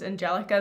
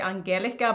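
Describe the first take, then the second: First: The name is pronounced the English way. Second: The name is pronounced the Norwegian way. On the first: "in English it's Angelica" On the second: "in Norwegian, which is like where I'm from, we would say Angelica"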